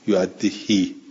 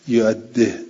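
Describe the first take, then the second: First: The final i vowel is fully lengthened. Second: The final i vowel is only half pronounced. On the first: "بل باقونه بالکسر بل اشبا ... یعدهی اینجور" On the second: "یه جوری که هم این کسره هم گفته بشود و گفته نشود، اینجوری ها"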